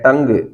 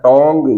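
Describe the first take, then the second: First: The vowel is a short central 'uh' sound. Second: The vowel is a rounded 'o' sound. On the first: The speaker calls it right. "यह है टंग" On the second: The speaker calls it wrong. "या टोंग"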